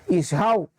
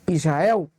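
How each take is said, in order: No difference in how they are said.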